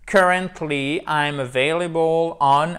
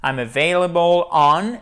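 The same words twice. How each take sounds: First: Careful English model line; model English reading. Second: "I'm available on" with "on" louder; stress on on. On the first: (lecture modèle en anglais) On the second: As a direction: bring out the preposition "on". (insister sur on) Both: Shown as a demonstration. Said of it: "c'est la préposition pour introduire".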